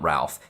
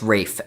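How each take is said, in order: First: The name has a short vowel and an L sound. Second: The name rhymes with safe, with no L sound. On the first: The speaker calls it wrong. "not Ralph" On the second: The speaker calls it right. "R A L P H is pronounced Rafe in his name"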